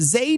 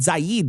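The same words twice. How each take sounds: First: The vowel rhymes with 'maid'. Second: The vowel does not rhyme with 'maid'. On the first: The speaker calls it right. "rhymes with maid and raid" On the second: The speaker calls it wrong. "I pronounced it Zaid last time"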